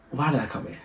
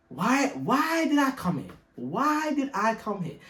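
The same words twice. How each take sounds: First: Said in the usual way. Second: High, slow wailing lament; mock despair. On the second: Realising he's in Cork, mock wailing lament. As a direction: wail it like a hammed-up tragedy.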